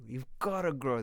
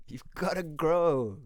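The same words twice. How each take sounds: First: Said in the usual way. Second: Slow, louder, leaning on grow; emphatic. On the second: Shown as a demonstration. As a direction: drive home the word grow. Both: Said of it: "repeats the line twice".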